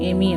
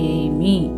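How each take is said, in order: First: The word is said run together as one unit. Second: The word is split into two separate parts. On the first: The speaker calls it wrong. "ஏமி அப்படின்னு நம்ம சொல்லாமல்" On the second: The speaker calls it right. "அதை நம்ம தனியாக நம்ம சொல்கிறோம்"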